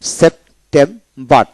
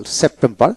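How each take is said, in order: First: September slowly as sep, tem, bar; three separated beats in September; split into syllables. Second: Said in the usual way. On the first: Shown as a demonstration. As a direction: pause between the syllables of September. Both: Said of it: "তিনটা syllable".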